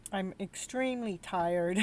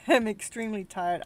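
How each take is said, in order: First: Slow, drained admission of being tired; worn-out drag. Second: Louder, laughing through the words. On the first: Streamer telling her chat she is exhausted, slow and drained. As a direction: let the tiredness slow every word. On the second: Streamer repeating to her chat that she is tired, laughing. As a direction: laugh at your own exhaustion. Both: Real, not acted.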